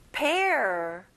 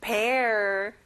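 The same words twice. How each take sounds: First: Pear with no final R sound, like pe; pear, Korean style with an open end; pear without R. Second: Pear ending on a clear curled R; final R in pear. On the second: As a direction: sound the R at the end of Pear. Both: Shown as a demonstration. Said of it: "끝에 R 발음을 내보세요".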